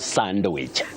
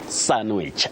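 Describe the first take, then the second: First: The word is said with a D sound. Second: The word is said without a D sound. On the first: The speaker calls it wrong. "not sandwich" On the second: The speaker calls it right. "The D is silent"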